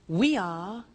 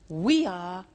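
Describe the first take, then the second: No difference in how they are said.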